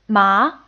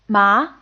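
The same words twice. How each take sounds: First: The pitch rises from mid to high. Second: The same.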